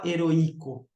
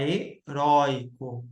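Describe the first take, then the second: First: "heroico" with the stress moved onto a separate i; wrong pronunciation. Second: "heróico" with stressed open ÓI as one syllable; correct pronunciation. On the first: Teacher showing students what nobody says, "heroico" mispronounced with stressed i. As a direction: say "heroico" as he-ro-Í-co, hiatus on the i. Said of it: "Você não fala heroico". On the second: Teacher giving students the real form, "heróico" with stressed ÓI diphthong. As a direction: say "heróico" as he-RÓI-co, the diphthong held together. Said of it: "você fala heróico". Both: Shown as a demonstration.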